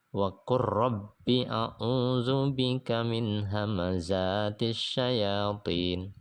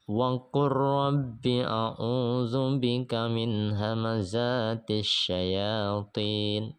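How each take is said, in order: No difference in how they are said.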